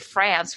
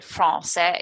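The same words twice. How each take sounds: First: It is said with an English pronunciation. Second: It is said with a French pronunciation. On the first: This is how English speakers normally say it. "we say France" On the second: This is how the locals say it. "we don't say France"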